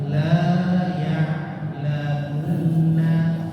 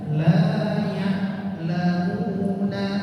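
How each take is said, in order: First: The phrase is said without a nasal sound. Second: The phrase is said with a nasal sound. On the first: The speaker calls it right. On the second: The speaker calls it wrong.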